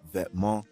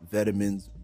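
First: The word is pronounced with a French accent. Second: The word is pronounced with an English accent. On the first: "which is the actual way to pronounce it" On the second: "we got to keep it Anglo-Saxon"

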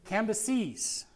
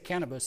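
First: The name ends in a clear 'seez' sound. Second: The name sounds like the word cannabis. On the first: The speaker calls it right. "Let me say that right" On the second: The speaker calls it wrong. "I say Cannabis, sounds like he's, you know"

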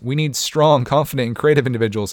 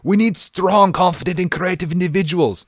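First: It is said in the speaker's ordinary accent. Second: It is said in a put-on Russian accent.

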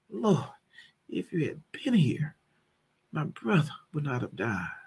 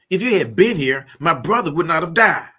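First: It sounds sorrowful and grieving. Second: It sounds upset and accusing.

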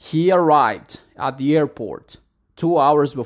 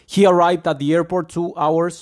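First: The sentence is spoken at a slower pace. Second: The sentence is spoken too fast. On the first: The speaker calls it right. "la forma en cómo tú lo deberías leer" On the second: The speaker calls it wrong. "Pero van demasiado rápido"

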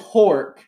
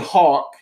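First: The vowel sounds r-like, as in 'Hork'. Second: The vowel is plain, with no r-like sound. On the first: Someone else says it this way. "She says Hork" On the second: This is the speaker's own way of saying it. "I say Hawk"

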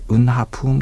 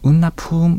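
First: The word is said in full with every syllable. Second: The word is shortened, dropping the ha syllable. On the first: This is the formal full pronunciation. "今回は正式な言葉ということでウンナハプーンという読み方" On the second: This is a casual shortened pronunciation. "ウンナプーンであるとかウンハプーンというふうに発音されることもあります"

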